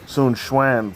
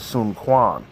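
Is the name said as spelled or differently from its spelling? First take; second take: differently; as spelled. First: The name is said unlike its written spelling. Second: The name is said the way it is spelled. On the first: The speaker calls it right. "I'm genuinely surprised at how some of the names are pronounced" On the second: The speaker calls it wrong. "it looks like it says"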